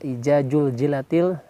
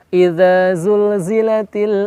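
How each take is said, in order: First: The consonants are said as j sounds. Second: The consonants are said as z sounds. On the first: The speaker calls it wrong. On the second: The speaker calls it right.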